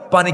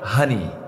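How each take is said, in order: First: It is said with a P, as in standard Bengali. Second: The P becomes H, as in Noakhali dialect.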